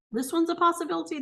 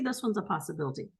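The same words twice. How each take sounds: First: Higher and quick, hopeful; brighter first take. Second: Lower, quick, much softer aside; softer second take. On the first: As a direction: toss it out lightly and high. Weighing answer choices aloud. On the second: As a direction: say it again under your breath. Repeats to herself, softer. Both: Real, not acted.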